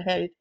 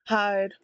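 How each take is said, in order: First: "hide" slipped out as "head"; slip of the tongue. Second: Said in the usual way. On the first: Real, not acted.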